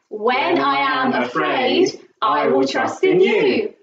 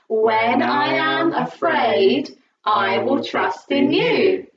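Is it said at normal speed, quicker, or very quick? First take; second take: very quick; normal speed. First: It is said faster still. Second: It is said at a normal speed.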